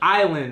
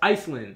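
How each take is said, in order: First: The S is silent, like eye-land. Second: The S is pronounced, like is-land. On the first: The speaker calls it right. "someone was like, no, that's island" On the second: The speaker calls it wrong. "I was like, no, that's Iceland"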